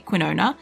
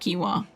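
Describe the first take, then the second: First: The word has an extra n sound near the end. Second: The word has no extra n sound near the end. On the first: The speaker calls it wrong. "It's how I learnt to say it first" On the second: The speaker calls it right. "taught me how to say it properly"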